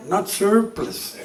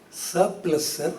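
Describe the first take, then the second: First: "surplus" drawn out slowly with a heavy American r; American pronunciation. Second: "Surplus" said softly with no American r; Indian pronunciation. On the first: Lecturer correcting a student, "surplus" in mock American pronunciation. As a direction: exaggerate the r in "surplus". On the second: Student querying the lecturer, "Surplus" in plain Indian pronunciation. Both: Acted. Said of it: "That's how the Americans do it".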